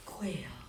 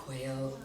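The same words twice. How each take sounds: First: Whisper. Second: Said in the usual way. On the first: Acted. Bird so small, shy and quiet.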